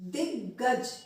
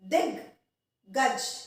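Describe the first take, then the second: First: The word is said smoothly without a break. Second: There is a short break between its two halves.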